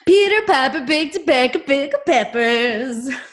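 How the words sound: It sounds triumphant, like after closing a deal.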